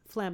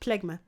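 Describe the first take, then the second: First: The word is said as one syllable. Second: The word is said as two syllables. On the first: The speaker calls it right. "that's actually pronounced as phlegm" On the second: The speaker calls it wrong. "not plegma"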